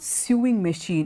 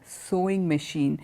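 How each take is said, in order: First: The first vowel does not sound like 'so'. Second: The first vowel sounds like the word 'so'. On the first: The speaker calls it wrong. "They take it from the spelling. It's it's not sewing machine" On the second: The speaker calls it right. "it is a sewing machine. The pronunciation is very similar to the word which I told you before, S O W"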